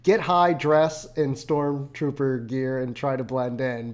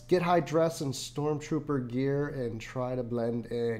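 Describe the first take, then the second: First: There is a pause after 'high'. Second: 'High dress' runs together without a pause.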